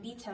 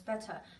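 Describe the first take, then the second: First: The word is said with a New Zealand vowel. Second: The word is said with a non-New Zealand vowel.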